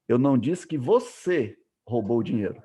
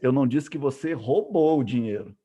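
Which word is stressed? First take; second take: você; roubou. First: The word você is stressed. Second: The word roubou is stressed. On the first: Someone else stole it. "eu estou dizendo que outra pessoa que roubou" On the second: The money was borrowed, not stolen. "eu estou dizendo que você fez, pegou emprestado"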